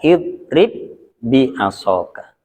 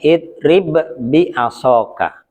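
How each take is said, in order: First: The first b merges into a doubled b. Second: The first b is released with a bounce. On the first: The speaker calls it right. "Jadi membacanya idrib bi asoka" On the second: The speaker calls it wrong. "asalnya bacanya idrib bi asoka"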